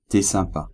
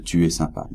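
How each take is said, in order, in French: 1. Le 'tu es' se contracte en une seule syllabe. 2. Le 'tu es' se dit en deux mots pleins. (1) "dans le langage parlé, on dit très souvent t'es" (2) "au lieu de tu es sympa"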